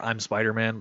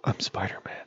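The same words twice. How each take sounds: First: Said in the usual way. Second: Soft, breathy whisper, lower; hushed reveal. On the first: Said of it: "I just got the Tobey Maguire vibe when I". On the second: Acted. Peter revealing his identity to Carly in a hushed whisper. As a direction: confess it in a whisper. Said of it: "I just got the Tobey Maguire vibe".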